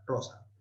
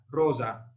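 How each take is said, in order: First: The middle s is voiceless, like an s. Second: The middle s is voiced, like a z. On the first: This is the classical pronunciation. "siempre sorda" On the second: This is the Italianate or medieval pronunciation. "la van a pronunciar sonora"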